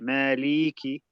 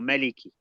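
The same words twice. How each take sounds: First: The final vowel is drawn out long. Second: The final vowel is kept short. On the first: The speaker calls it wrong. "if you drag it out too wrong, it sounds like a ya" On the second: The speaker calls it right. "it's supposed to be maliki"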